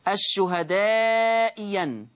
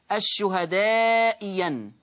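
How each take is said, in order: First: The second hamza becomes a y sound. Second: The second hamza becomes a y sound.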